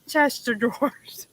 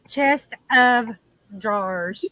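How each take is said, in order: First: The 'of' merges into one word, 'chester'. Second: The 'of' is said as a separate word. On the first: "I always say Chester drawers" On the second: "instead of chest of drawers"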